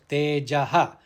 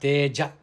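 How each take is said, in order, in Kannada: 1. ಪದವು ಕೇಳಿಸುವ ಉಸಿರಿನ 'ha' ಶಬ್ದದೊಂದಿಗೆ ಕೊನೆಗೊಳ್ಳುತ್ತದೆ. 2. ಪದವು ಉಸಿರಿನ 'ha' ಇಲ್ಲದೆ ಕೊನೆಗೊಳ್ಳುತ್ತದೆ. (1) "it should be pronounced Tejaha" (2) "not Teja Kshama"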